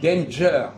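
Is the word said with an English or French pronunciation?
English. It is said with an English J sound. "ils disent danger"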